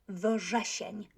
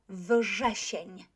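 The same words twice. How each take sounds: No difference in how they are said.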